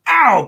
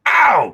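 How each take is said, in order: First: High, loud ow; hammed-up high yelp; higher mock yelp. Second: Sharp loud ow; hammed-up Donald yelp; mock yelp. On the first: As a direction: squeal it like a stepped-on duck. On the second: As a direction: yelp as if your foot was stomped. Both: Donald Duck voiced in story.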